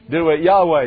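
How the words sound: Your way is said in a Southern accent.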